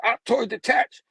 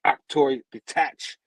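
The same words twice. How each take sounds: First: High-pitched villain's order; raised, urgent acted order; called-out command. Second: Slow, drawn-out villain's order; deliberate, stretched-out order; measured command. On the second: Acted. Villain's command, first take.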